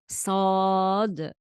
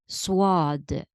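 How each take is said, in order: First: No w sound follows the first consonant. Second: A w sound follows the first consonant. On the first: The speaker calls it right. "There is no wow in sad. We pronounce the letter as sad" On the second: The speaker calls it wrong. "Some students pronounce, for example, sad as swad"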